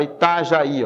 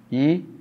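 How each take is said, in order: First: Said in the usual way. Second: "Itajaí" broken into I, ta, já, í with long pauses; syllable by syllable. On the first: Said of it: "Olha essa palavra". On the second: Shown as a demonstration. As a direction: spell out "Itajaí" one syllable at a time. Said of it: "Eu tenho aqui". ("Itajaí" sílaba por sílaba, com pausas longas)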